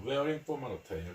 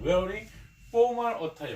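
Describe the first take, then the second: First: Said in the usual way. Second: "formal" hit high and loud, teacher modelling; stress on formal. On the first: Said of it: "정장을 입는 것이었습니다". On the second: Shown as a demonstration. Teacher drilling "formal" for the class, loud and high. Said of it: "정장을 입는 거".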